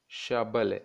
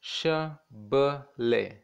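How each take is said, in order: First: Said in the usual way. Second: "Shabale" very slowly as sha, ba, le; three separate beats in "Shabale"; syllable by syllable. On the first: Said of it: "to read the whole word". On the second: Shown as a demonstration. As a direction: break "Shabale" into its three parts with pauses. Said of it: "It has three parts".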